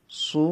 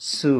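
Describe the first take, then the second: First: "সু" with a heavy Arabic sad; full-mouthed, emphatic "সু"; thick, heavy. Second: "সু" with a light Arabic sin; light, unthickened "সু"; thin, light. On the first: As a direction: thicken the s and vowel of "সু". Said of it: "মোটা বুঝে যেতে হবে". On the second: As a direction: keep the s and vowel of "সু" thin. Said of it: "মোটা, পাতলা". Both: Shown as a demonstration.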